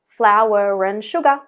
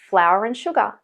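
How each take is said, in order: First: An r sound links the first two words. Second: No r sound is heard between the words.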